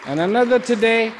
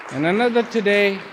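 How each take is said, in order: Both takes have the same delivery.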